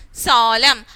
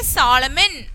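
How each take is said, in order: First: "Solemn" as sol-em, closing on the M; silent N. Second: "Solomon" ending in an audible N, sol-em-en; wrongly sounded N. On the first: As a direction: end "Solemn" on M with no N. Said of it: "I didn't say Solomon". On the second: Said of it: "Did I say that?". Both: Shown as a demonstration.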